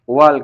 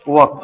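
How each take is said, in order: First: An L sound is heard before the K. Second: No L sound is heard before the K. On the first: The speaker calls it wrong. "देखो अभी कोई बोला भी है वाल्क" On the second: The speaker calls it right. "इसको बोलते हैं वक"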